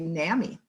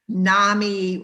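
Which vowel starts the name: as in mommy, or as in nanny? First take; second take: nanny; mommy. First: The first vowel differs from mommy, East Coast style. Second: The first vowel rhymes with mommy, Minnesota style.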